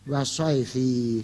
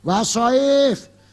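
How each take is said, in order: First: The word continues with an added final vowel. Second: The word stops short on its final consonant. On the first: The reader runs on without stopping. The speaker calls it wrong. "Ini santri kok ngeyel" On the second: The reader pauses and stops at this word. The speaker calls it right.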